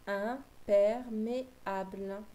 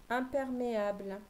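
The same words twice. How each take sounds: First: Slow, careful "imperméable" with each syllable drawn out; "imperméable" said slowly, syllable by syllable; slow careful reading. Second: Said in the usual way. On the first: Shown as a demonstration. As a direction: spell the word out slowly for a child. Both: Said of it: "Quel mot peut-on former".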